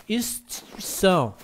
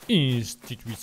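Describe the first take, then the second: First: "Instituição" said slowly, as a Portuguese speaker; Portuguese-accented. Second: French-accented Portuguese. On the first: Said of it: "como português". ("Instituição" com sotaque de Portugal) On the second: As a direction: say "Instituição" like a French speaker. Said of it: "Oui, je parle français". ("Instituição" com sotaque francês) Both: Shown as a demonstration.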